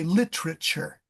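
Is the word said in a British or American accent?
American. It is said with an American accent. "Americans say literature"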